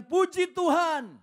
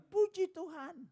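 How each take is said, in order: First: High, loud, slow praise; joyful praise. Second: High parrot echo. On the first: Believer praising God each morning, high and loud. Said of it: "Dia bilang". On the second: Parrot copying the praise, high voice. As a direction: chirp it back like a parrot. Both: Retold or imitated.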